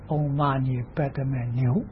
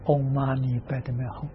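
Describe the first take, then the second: First: The final syllable is pronounced like niu. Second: The final syllable is pronounced like hong. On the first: The speaker calls it wrong. "但他念错了，他念嗡嘛呢叭的妙牛" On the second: The speaker calls it right. "那个是念哄啊"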